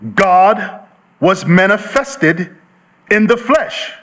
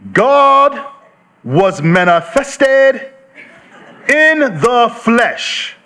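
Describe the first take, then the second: First: It is read at a normal pace. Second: It is read slowly and deliberately.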